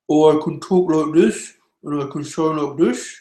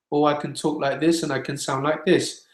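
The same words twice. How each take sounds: First: Rounded, muffled vowels, THIS turned toward "dush"; altered mouth shape. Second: Said in the usual way. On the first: Shown as a demonstration. Singing teacher showing how the mouth changes sound, THIS rounded to "dush". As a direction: talk through a pursed mouth, LIKE THIS coming out "loke dush". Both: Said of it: "actually changed the sound significantly".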